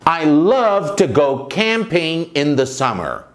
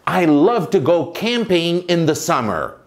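The two takes are said the same way.

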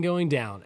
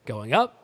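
First: Going down. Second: Going up. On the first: Host showing vocal dynamics to listeners, voice going down. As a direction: pitch dropping on "down". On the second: Host showing vocal dynamics to listeners, voice going up. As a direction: pitch swooping up on "up". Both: Shown as a demonstration. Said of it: "tried to do better of".

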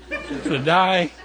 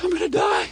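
First: Said in the usual way. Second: High-pitched mock dying cry; exhausted hiker's wail. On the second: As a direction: cry out like a spent climber, hammed up. Retells wife exhausted halfway up climb.

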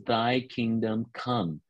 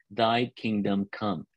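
First: Slow, solemn; slow lead-in line. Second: Slow and solemn, said together with the group; slow, spoken together. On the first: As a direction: set the words out slowly for others to repeat. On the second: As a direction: say it along with them, slowly. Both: Shown as a demonstration. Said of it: "Can you all say that with me?".

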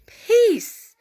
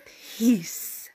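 First: High, loud, commanding single word; teacher voice. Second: Said in the usual way. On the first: Acted. Jesus rebuking the wind and sea, stern teacher voice. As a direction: cut through the noise like a teacher. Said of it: "that teacher voice". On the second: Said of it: "the King James Version says".

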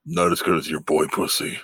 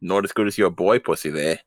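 First: Exaggerated Australian twang, played for a laugh; mock Australian accent. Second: Put-on Australian accent, second try. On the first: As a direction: imitate an Australian bloke, lightly hammed. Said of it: "That was a good accent". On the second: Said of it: "Without the A, and you're pretty close".

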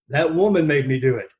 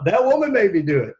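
First: Plain. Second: Higher and louder, leaning on woman; hammed-up blame on woman; mock blaming whine. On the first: Retold or imitated. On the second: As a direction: repeat the excuse with mock emphasis. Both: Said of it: "there's the one we could use".

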